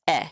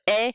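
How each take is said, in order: First: The vowel is brief and short. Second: The vowel is held long.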